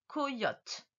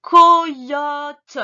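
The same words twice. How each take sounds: First: Said in the usual way. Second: COYOTE very loud, co-yooo-te with long vowels; stretched dictation. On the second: Shown as a demonstration. Teacher dictates to the pupil, COYOTE drawn out. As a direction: stretch each syllable of COYOTE loudly. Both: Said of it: "le mot suivant".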